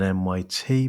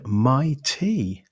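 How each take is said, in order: First: The name is spelled out as three letters. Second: The name is said as the word my plus T. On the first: "rather than M Y T" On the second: "I'm pronouncing it like that"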